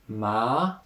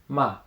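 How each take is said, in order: First: The pitch rises from middle to high. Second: The pitch falls sharply from high. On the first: "second tone" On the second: "the fourth tone, ma. ... a little bit sharper, down"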